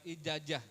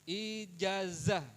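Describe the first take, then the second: First: The middle consonant is a j sound. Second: The middle consonant is a z sound. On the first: The speaker calls it wrong. "bukan ijajah" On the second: The speaker calls it right. "Ijazah bukan ijajah"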